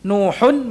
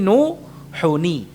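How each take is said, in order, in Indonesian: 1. Kata itu berakhir dengan bunyi 'n' tertutup. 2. Kata itu berakhir dengan suku kata 'ni' tambahan. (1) "Nuhun menjadi nuhuni" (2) "Nuhun menjadi nuhuni"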